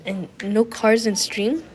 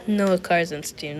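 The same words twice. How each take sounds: First: "And no cars in stream?" read as a slow question rising on "cars"; questioning rise. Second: "No cars in stream." said slowly as a falling statement, stress on "No"; flat statement. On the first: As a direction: slowly ask "And no cars in stream?" lifting "cars". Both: Shown as a demonstration.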